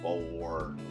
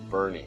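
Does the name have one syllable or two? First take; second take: one; two. First: The name is said with one syllable. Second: The name is said with two syllables. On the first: The speaker calls it wrong. "even though it looks like it's Born" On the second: The speaker calls it right. "That's how you pronounce it"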